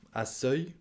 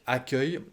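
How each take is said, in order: First: The middle syllable starts with an s sound. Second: The middle syllable starts with a k sound. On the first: The speaker calls it wrong. "et non pas seuil" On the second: The speaker calls it right. "pour que la syllabe se prononce que"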